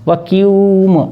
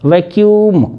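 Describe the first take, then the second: First: The word is said very slowly, drawn out. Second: The word is said at a normal pace.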